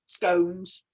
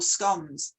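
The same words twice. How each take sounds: First: "scones" with a long O, like cones. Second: "scones" with a short O, like gone. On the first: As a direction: make "scones" rhyme with stones. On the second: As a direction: make "scones" rhyme with dons. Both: Shown as a demonstration. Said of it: "quite a few people call it a scone".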